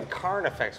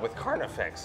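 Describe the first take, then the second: First: The voice stays steady while saying the word. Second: The voice cracks while saying the word. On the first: The speaker calls it right. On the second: The speaker calls it wrong.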